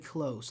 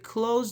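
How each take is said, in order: First: The word ends in a soft s sound. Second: The word ends in a buzzing z sound. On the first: It means near or intimate, as in a friendship. "Close as a noun, we say close, like close friend" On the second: It means to shut something. "we say close the door. That's a verb"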